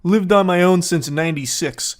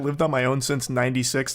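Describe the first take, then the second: First: Said in the usual way. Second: Lower, softer smug boast; mock self-important. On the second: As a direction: say it like a washed-up braggart. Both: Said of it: "I love the way he says that".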